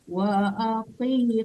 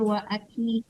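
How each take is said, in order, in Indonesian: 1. Konsonan tengahnya q tebal dari tenggorokan. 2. Konsonan tengahnya k depan yang biasa. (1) "kof tebal" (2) "jangan wa aki"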